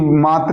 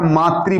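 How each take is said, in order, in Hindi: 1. शब्द का अंत सादे 'ra' की ध्वनि से होता है। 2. शब्द का अंत 'ri' की ध्वनि से होता है। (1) "मात्र नहीं बोला जाता" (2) "ये हमारा मातृ बोला जाता है ... री का सेंस देता है ये"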